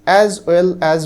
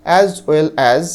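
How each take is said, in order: The two takes are said the same way.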